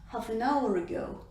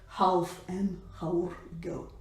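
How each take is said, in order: First: It is said fast with weak, merged words. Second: It is said slowly with each word pronounced fully. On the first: "when it's spoken fast" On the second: "instead of"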